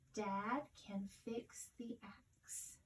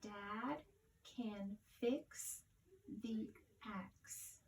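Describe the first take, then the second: First: It is read smoothly as one phrase. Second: It is read slowly, word by word.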